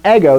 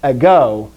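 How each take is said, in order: First: "ego" said like Eggo, EGG-o; "ego" as in the waffle, front-stressed; waffle-brand pronunciation. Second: "Ego" with the stress at the end, eh-GO; careful Greek "Ego", long final o; Greek pronunciation. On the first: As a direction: stress the first syllable of "ego". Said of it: "that's a waffle". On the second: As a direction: lean on the last syllable of "Ego". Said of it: "Not ego". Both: Shown as a demonstration.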